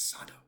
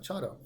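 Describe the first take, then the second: First: The word begins with an s sound. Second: The word begins with a ch sound. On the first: The speaker calls it right. "it's Sado" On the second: The speaker calls it wrong. "it's not Chado"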